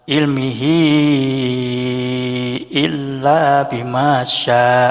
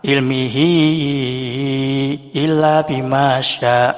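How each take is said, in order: First: The vowel after hi is held five counts. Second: The vowel after hi is held four counts.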